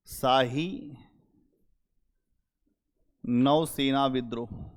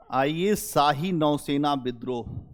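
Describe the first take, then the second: First: Spaced out and slowed, word by word, for note-taking; dictating the title slowly to the class; slow dictation. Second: Said in the usual way. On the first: Shown as a demonstration. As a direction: read it out slowly so they can write it down. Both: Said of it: "यहीं पे लिख लो note".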